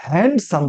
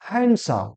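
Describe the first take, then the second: First: হ্যান্ডসাম with the d sounded, "hand-sam"; mispronounced handsome. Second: হ্যান্ডসাম with silent d, "han-sam"; corrected handsome. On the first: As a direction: say হ্যান্ডসাম as spelled, "HAND-sum". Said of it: "আর হ্যান্ডসাম বলবো না". (হ্যান্ডসাম-এর ভুল উচ্চারণ, ড সহ) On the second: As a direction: say হ্যান্ডসাম as "HAN-sum", dropping the d. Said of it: "কি বলবো?". (হ্যান্ডসাম-এর সঠিক উচ্চারণ, ড নীরব) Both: Shown as a demonstration.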